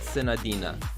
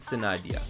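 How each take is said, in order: First: The name ends with a clear 'n' before the final vowel. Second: The name ends without an 'n' before the final vowel. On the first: This is how English speakers say it. "In English it's pronounced Senadina" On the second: This is how Japanese and Chinese speakers say it. "In Japanese and Chinese they pronounce it Senadia"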